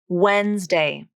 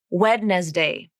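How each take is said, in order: First: It is said with two syllables, dropping sounds. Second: It is said with three syllables, sounding every letter. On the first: The speaker calls it right. "It's two syllables" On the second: The speaker calls it wrong. "It's not Wednesday"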